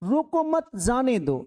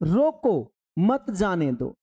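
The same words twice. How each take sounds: First: There is a pause after the second word. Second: There is a pause after the first word. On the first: Do not stop him; let him go. "रोको मत, instruction लिखा हुआ था, जाने दो" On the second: Stop him; do not let him go. "वही comma यहां लगा दिया। अब पढ़िए इसको"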